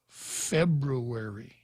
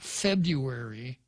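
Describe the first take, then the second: First: The first R sound is pronounced. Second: The first R sound is dropped. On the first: The speaker calls it right. "There are two R's in February" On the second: The speaker calls it wrong. "It's not February"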